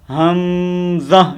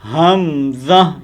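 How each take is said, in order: First: The ha sound is drawn out long. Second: The ha sound is said short and quick. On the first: The speaker calls it wrong. "ये गलत है" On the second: The speaker calls it right. "ये ठीक है"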